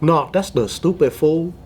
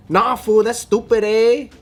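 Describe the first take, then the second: First: Imitated Vietnamese accent with Mexican slang. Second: Higher-pitched Chinese-American take on Chicano slang; Chinese accent, Mexican slang. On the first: Showing how SGV Vietnamese kids talk, Vietnamese accent. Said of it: "with a Vietnamese accent". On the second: Acted. Imitating Chinese kids who learned English from Mexicans, Mexican-slang accent. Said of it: "they have a Chinese accent with Mexican slang".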